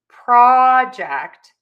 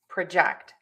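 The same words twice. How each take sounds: First: The stress is on the first syllable. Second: The stress is on the second syllable. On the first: It is used as a noun. "stress syllable number one in nouns" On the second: It is used as a verb. "syllable number two in verbs"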